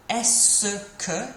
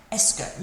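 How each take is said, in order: First: "Est-ce que" drawn out in separate syllables; slow syllable-by-syllable "Est-ce que"; sounded out. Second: "Est-ce que" run together as es-kuh; natural pronunciation. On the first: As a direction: spell out "Est-ce que" piece by piece, es-suh-kuh. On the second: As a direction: say "Est-ce que" quickly as two syllables, es-kuh. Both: Shown as a demonstration. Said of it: "But it sounds like est-ce que".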